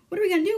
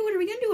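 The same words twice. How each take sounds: First: High, louder panicked question. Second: Even higher panicked repeat; rising panic, voice climbing; more panicked. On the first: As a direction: panic after the shot. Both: Retold or imitated. Flapoon panics after the shooting.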